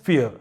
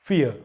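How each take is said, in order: Both takes have the same delivery.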